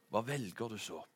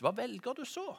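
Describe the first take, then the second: First: Falling answer. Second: Hva velger du så? sung with the tune climbing high on så; rising sung line ending high on så; rising question. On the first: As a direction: let the line sink as a closing answer. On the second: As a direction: lift så up high as an open question. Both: Shown as a demonstration. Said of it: "en sang".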